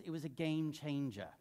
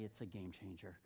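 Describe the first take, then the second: First: Imitating a pastor's South African accent. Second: Said in the usual way. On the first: Pastor recalls a colleague's verdict, in a South African accent. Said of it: "he's got this great South African accent". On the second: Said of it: "I wouldn't use that accent".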